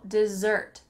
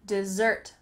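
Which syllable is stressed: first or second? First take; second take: second; second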